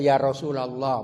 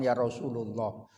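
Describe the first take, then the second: First: The vowel before 'lah' is 'a'. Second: The vowel before 'lah' is 'u'. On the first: The speaker calls it right. "dibaca mansub aba gitu ya, bukan abu. Makanya baca" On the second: The speaker calls it wrong.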